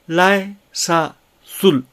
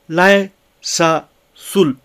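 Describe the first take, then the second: No difference in how they are said.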